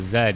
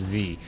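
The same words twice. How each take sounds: First: The letter is said the Canadian way, zed. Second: The letter is said the American way, zee.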